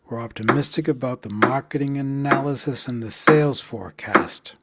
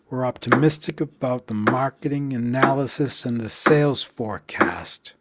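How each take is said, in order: The two takes are said the same way.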